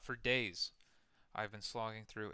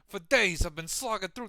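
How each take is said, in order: First: It is read in an ordinary, unaltered voice. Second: It is read in a put-on imitating voice.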